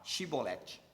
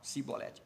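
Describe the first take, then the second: First: The word begins with an sh sound. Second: The word begins with an s sound. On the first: This is the password as it should sound. The speaker calls it right. "não podiam citar ou falar Shibolete" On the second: This is how the Ephraimites said it, giving themselves away. The speaker calls it wrong. "Eles falavam Sibolete"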